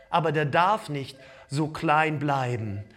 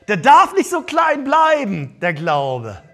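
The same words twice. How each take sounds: First: Said in the usual way. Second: Much louder and higher, shouted; preacher's full-force shout. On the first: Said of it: "repeated shouted". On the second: Shown as a demonstration. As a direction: shout the point to the back row. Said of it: "repeated louder".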